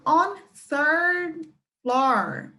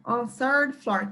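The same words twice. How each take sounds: First: Very slow, stretched out word by word; teacher slowing it right down; slow demo. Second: Said in the usual way. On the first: Shown as a demonstration. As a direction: spell it out slowly for the class.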